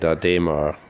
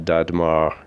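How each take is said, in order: First: The accented middle vowel is sounded 'ay'. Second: The accented middle vowel is left out. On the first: The speaker calls it right. "It's uh" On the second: The speaker calls it wrong. "I had mispronounced this first because uh, ... didn't have an accent over the E"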